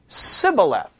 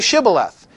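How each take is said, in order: First: The word begins with an s sound. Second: The word begins with an sh sound. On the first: The speaker is an Ephraimite who cannot make the sound. The speaker calls it wrong. "the other guy would say Sibboleth. He couldn't pronounce the SH sound" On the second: The speaker is a Gileadite who can make the sound. The speaker calls it right. "Say Shibboleth"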